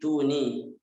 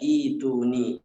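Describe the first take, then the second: First: It is linked to the preceding word, starting with t. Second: It is said on its own, starting with i. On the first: The reader continues without stopping before this word. "kalau wasol dibaca seperti biasa, seperti tulisannya" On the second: The reader has stopped before this word. "tapi kalau kita waqaf dibaca ituni"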